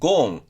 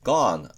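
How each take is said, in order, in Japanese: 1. 母音は長い'oh'の音です。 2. 母音は開いた'ah'の音です。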